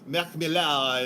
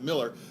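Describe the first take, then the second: First: The surname is pronounced the French way. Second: The surname is pronounced the plain English way. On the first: This is how people in France say it. "from a, a French podcast guy... he's like Marc Millar" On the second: This is how people here and the man himself say it. "everybody over here, it, and even including Mark Miller himself, pronounces pronounces it Miller"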